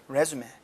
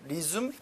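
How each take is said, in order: First: The stress is on the first syllable. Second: The stress is on the second syllable. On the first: It means a job application document. "강세가 앞에 있고 발음이 틀려요" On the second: It means to begin again. "어떤 일을 재개하다"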